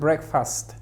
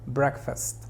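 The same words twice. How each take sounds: First: The second syllable has a full, clear vowel. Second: The second syllable is weak with a schwa. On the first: The speaker calls it wrong. "No digas breakfast, no" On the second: The speaker calls it right. "La sílaba tónica es break. Fast se pronuncia muy sutil"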